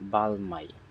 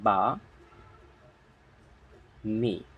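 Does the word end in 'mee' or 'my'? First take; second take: my; mee. First: The l is sounded and it ends in 'my'. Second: The l is silent and it ends in 'mee'. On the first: The speaker calls it wrong. "কিন্তু এটা আসলে উচ্চারণ এমন না" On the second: The speaker calls it right. "এর উচ্চারণ হবে বা মি"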